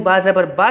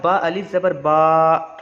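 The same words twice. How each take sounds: First: Said in the usual way. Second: बा अलिफ ज़बर बा with the बा drawn long and slow; drawn-out vowel. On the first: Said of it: "अब बा अलिफ ज़बर बा". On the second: Shown as a demonstration. Teacher shows students the long बा, stretched slowly. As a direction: stretch the बा sound out. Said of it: "थोड़ा खींच के पढ़ेंगे".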